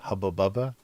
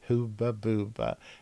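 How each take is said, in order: First: The first vowels sound like 'uh'. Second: The first vowels sound like 'ooh'.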